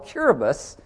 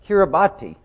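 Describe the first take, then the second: First: The ending is said with an S sound. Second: The ending is said with a T sound. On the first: The speaker calls it right. "no, Kiribati, because the T-I is pronounced S" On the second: The speaker calls it wrong. "they'll go"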